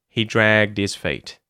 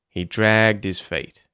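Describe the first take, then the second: The two takes are said the same way.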